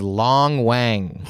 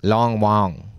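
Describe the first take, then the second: First: LONG WANG with a flat English A in Wang; plain English pronunciation. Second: Long Wang with Wang said like "wong"; native-style pronunciation. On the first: Landlord's name told to friends, said the English way. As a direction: say Long Wang, Wang rhyming with hang. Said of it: "his name was more like". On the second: Showing friends how landlord's name is said, Wang as "wong". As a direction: round the vowel in Wang to an "aw". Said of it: "That's how you would say it". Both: Shown as a demonstration.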